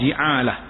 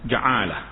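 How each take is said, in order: First: The first vowel is an i sound. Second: The first vowel is an a sound. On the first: "Boleh baca baris bawah" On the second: "boleh dibaca dengan baris atas"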